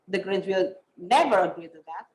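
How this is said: The stress is on never.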